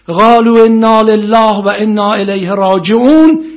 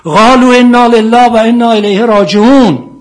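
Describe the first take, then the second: First: Loud, high, slow chanted verse from the pulpit; preaching at full force. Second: Chanted, high, slow ringing recitation; chanted, intone the verse; loud chanted verse. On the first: Preacher to congregation, chanting the verse loud and slow. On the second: Chanted, preacher reciting verse, loud and slow. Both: Acted.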